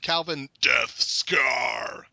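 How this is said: The name is said in a put-on voice.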